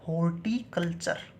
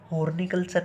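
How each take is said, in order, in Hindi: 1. 'iculture' से पहले इसे T sound के साथ बोला जाता है। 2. 'iculture' से पहले इसे N sound के साथ बोला जाता है।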